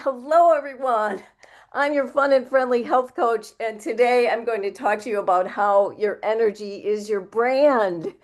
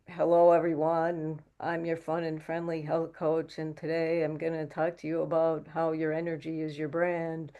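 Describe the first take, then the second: First: It is said brightly, with high energy. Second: It is said flatly, with low energy.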